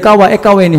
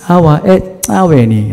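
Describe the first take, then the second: First: The consonant is a plain k sound. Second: The consonant is a tongue click. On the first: The speaker calls it wrong. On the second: The speaker calls it right.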